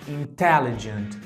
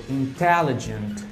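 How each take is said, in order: The two takes are said the same way.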